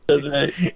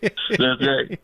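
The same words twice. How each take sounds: First: A half-laughing fake sob; hammed-up whimper, barely held; mock crying. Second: Laughing. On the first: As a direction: pretend to cry over it, jokingly. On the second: Pretend. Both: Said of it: "And I can even cry if I want to".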